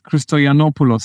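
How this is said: The name is said with English pronunciation. "I think, would be in English"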